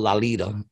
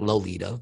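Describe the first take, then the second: First: The first syllable sounds like 'lol' in lollipop. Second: The first syllable does not sound like 'lol'. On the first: The speaker calls it right. "that's how you say it, people, Lolita. It's like lollipop" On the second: The speaker calls it wrong. "It's not Lolita"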